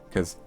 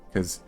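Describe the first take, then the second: The two takes are said the same way.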